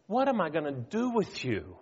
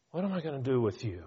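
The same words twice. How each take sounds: First: Frustrated. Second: Quick, weary sigh of exasperation; tossed off fast like a fed-up parent; exasperated. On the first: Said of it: "they just say". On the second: Preacher voicing God's exasperation, quick and tired. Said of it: "You can almost hear the exasperation". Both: Retold or imitated.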